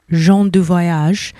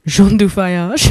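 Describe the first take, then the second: First: Said in the usual way. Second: Playful attempt at a French accent; hammed-up French accent with a chuckle. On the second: Shown as a demonstration. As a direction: put on your best French accent, half laughing. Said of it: "in my best French accent".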